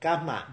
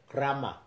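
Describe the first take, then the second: First: Karma is pronounced the Thai way. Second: Karma is pronounced the Russian way. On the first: "different pronunciation Thai language" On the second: "In Russia, they say"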